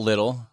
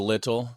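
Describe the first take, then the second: First: "little" said the American way, like "liddle"; T-flapping. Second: "little" with a careful T in the middle; "little" pronounced with T, not D; T sounded. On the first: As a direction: flap the T in "little" to a D. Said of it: "I call it little". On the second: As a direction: say "little" with the T unflapped. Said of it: "instead of little". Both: Shown as a demonstration.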